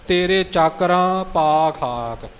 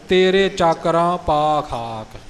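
Both takes have the same delivery.

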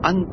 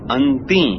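First: The word ends on the consonant t. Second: The word ends with an added ee vowel. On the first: The speaker calls it wrong. "ਅੰਤ ਨਹੀਂ ਅੰਤੀ" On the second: The speaker calls it right. "ਅੰਤ ਨਹੀਂ ਅੰਤੀ"

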